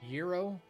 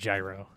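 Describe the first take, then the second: First: The word sounds like 'euro'. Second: The word does not sound like 'euro'. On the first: This is how others say it. "How else do you say gyro?" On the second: This is how the speaker chooses to say it. "I'm saying gyro"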